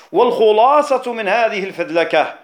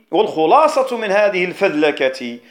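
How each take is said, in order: Both takes have the same delivery.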